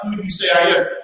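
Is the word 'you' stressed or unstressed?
unstressed. The word you carries no special stress. A plain question about his identity. The speaker calls it wrong. "So it's not like"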